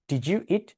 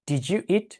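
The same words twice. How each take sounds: The two takes are said the same way.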